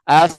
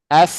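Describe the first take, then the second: The two takes are said the same way.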